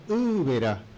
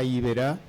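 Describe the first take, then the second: First: The name begins with a 'u'-like vowel. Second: The name begins with an 'ee' vowel. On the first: The name means shining water. The speaker calls it right. "Porque U es agua" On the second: The name has no meaning. The speaker calls it wrong. "me suena tan mal"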